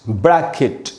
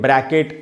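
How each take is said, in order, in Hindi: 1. आखिरी अक्षर में 'ih' स्वर है। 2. आखिरी अक्षर में 'eh' स्वर है। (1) "तो इस प्रकार से इन इन सारे वर्ड्स को हम पढ़ेंगे" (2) "वो सही उच्चारण नहीं है"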